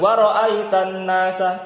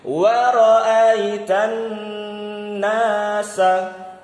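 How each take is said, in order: First: The doubled n is rushed through too quickly. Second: The doubled n is held with a nasal hum. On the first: The speaker calls it wrong. "jangan waraitan nasa. Itu kecepatan" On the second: The speaker calls it right. "Kayak gini"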